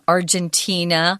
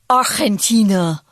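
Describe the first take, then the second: First: It is pronounced the English way. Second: It is pronounced the Argentine Spanish way.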